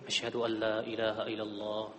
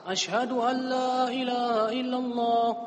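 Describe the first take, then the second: First: The phrase is said softly, in a low voice. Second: The phrase is said loudly, in a raised voice. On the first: "Kemudian diucapkan secara lirih" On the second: "Lalu kembali lagi dengan keras"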